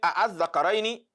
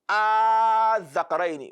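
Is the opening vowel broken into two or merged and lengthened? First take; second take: broken; merged. First: Two separate a sounds are said at the start. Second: One long, merged a sound is said at the start. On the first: The speaker calls it wrong. "instead of saying" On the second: The speaker calls it right. "we now pronounce"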